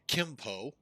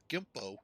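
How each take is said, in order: First: The name begins with a K sound. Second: The name begins with a G sound. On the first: "actually the Americans, us, uh, say it Kimpo" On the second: "G I M P O"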